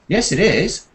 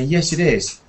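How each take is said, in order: First: The reply is said with a marked, emphatic voice. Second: The reply is said flatly, without emotion. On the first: The speaker disagrees and corrects the other person. "You have to change your voice a bit to show that you're actually turning it around and disagreeing" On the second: The speaker simply agrees. "you just say it flatly"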